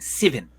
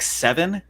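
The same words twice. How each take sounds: First: The vowel is pulled in, New Zealand style. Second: The vowel is a plain open E sound. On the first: "they really pull in seven" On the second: "when we say soft E, like seven"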